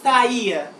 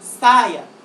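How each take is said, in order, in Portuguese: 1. As vogais estão separadas em sílabas diferentes. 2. As vogais estão unidas em uma só sílaba. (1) "Você não fala saia" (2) "Você fala saia"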